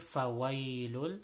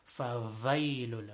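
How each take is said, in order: First: The second consonant sounds like an English W. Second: The second consonant sounds like an English V. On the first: The speaker calls it right. "it has a sound like a W in English" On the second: The speaker calls it wrong. "most commonly people say"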